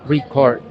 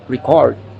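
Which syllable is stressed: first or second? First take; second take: first; second. First: The stress is on the first syllable. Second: The stress is on the second syllable. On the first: It is used as a noun. "used as noun, the stress in on the first syllable" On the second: It is used as a verb. "used as verb, the stress is on the second syllable"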